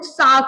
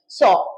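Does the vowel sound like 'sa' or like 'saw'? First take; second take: sa; saw. First: The vowel is an open 'a' sound. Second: The vowel is a rounded 'aw' sound. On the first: The speaker calls it wrong. "Second form में बहुत बार लोग सा कर देते हैं" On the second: The speaker calls it right. "ये पधारो सा वाला सा नहीं है, ये सौ रुपए वाला नोट सौ"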